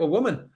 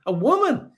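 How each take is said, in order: First: Said in the usual way. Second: High, disbelieving repeat of woman; incredulous echo. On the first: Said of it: "Ultra Macroscope says". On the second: Real, not acted. Host echoing a viewer's comment in disbelief. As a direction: toss the word back in mock disbelief. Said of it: "I wanna know what year".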